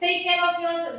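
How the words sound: It is said harshly, like yelling.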